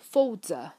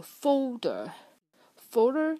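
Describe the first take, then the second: First: "folder" ending in uh, no r; British pronunciation. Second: Slow "folder" with a curled final r; American pronunciation. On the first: Teacher contrasts with British, non-rhotic "folder". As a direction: say "folder" British, final r dropped to schwa. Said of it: "就是英音". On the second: Teacher gives a further American example, rhotic "folder". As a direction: say "folder" American, r fully sounded. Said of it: "就是美音". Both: Shown as a demonstration.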